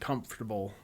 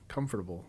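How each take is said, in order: First: Some syllables of the word are dropped or reduced. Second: Every syllable of the word is clearly pronounced. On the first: "instead of saying" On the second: "I'm just pronouncing every single like letter in the word"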